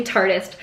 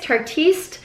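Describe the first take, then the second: First: "Tartist" plain, like the word artist with a T, falling; usual "Tartist". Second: "Tartiste" said the French way, final e, higher and asking; French-style guess. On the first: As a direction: settle on "Tartist", matter-of-fact. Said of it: "I just always say Tartist". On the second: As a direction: try "Tartiste" as if French, rising. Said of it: "I don't know how to pronounce it". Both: Shown as a demonstration.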